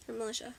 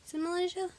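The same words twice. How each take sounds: First: "Malaysia" as muh-LISH-uh, said softer; alternative pronunciation. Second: "Malaysia" as muh-LAY-zhuh, pitched high as a question; questioned pronunciation. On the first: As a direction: offer "Malaysia" with a short i and sh. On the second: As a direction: try out "Malaysia" with a long ay, asking. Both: Real, not acted. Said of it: "I think it's Malaysia".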